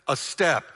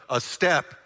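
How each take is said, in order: The two takes are said the same way.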